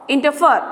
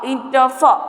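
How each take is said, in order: First: Said in the usual way. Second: "Interfere" sounded out as in-ter-fere; lightly segmented Interfere, syllable by syllable; split into syllables. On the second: Shown as a demonstration. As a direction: separate each beat of Interfere. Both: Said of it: "you just split the words".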